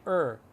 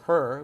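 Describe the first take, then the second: First: The h sound at the start is dropped. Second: The h sound at the start is pronounced. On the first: The speaker calls it right. "we say er" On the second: The speaker calls it wrong. "we don't say her"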